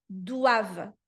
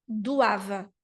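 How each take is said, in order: No difference in how they are said.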